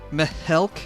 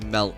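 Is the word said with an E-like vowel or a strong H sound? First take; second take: strong H; E vowel. First: A strong H sound is inserted. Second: The vowel sounds like an E. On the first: "a highly emphasized H" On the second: "I apparently say it with an E"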